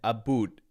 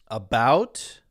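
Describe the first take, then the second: First: It is said in a Canadian accent. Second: It is said in an American accent. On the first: "Canadians tend to say oot and aboot" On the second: "Americans tend to say out, about"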